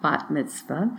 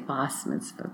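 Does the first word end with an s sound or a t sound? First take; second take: t sound; s sound. First: The first word ends with a t sound. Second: The first word ends with an s sound. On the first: "I'm using the Israeli pronunciation" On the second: "Sometimes in some circles they say bas mitzvah"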